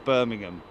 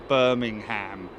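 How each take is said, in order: First: It is said with a British pronunciation. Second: It is said with an American pronunciation. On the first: The speaker calls it right. "as opposed to Birmingham" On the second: The speaker calls it wrong. "somebody from America saying Birmingham"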